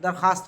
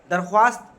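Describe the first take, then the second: First: दरख्वास्त said as darkhaast; दरख्वास्त with silent vao; correct, silent w. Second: दरख्वास्त with w sounded, darkhwaast; spelling-pronunciation darkhwaast for दरख्वास्त; wrong, sounded w. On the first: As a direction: drop the w in दरख्वास्त. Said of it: "दरख्वास्त होता है". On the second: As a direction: pronounce the vao in दरख्वास्त as w. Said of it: "दरख्वास्त नहीं कहते हैं". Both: Shown as a demonstration.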